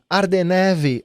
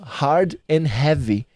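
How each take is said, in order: First: The H sounds are dropped and the words run together. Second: The H sounds are pronounced at each word start.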